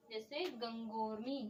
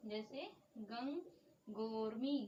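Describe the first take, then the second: First: Said in the usual way. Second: गंगोर्मी drawn out slowly, syllable by syllable; slow repeat. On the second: Shown as a demonstration. Teacher repeating the word slowly for students to copy down.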